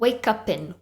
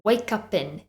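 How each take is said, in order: First: The words are linked into one word. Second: The same.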